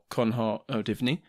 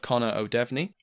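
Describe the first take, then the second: First: The name is pronounced the original Irish Gaelic way. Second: The name is pronounced the anglicized English way.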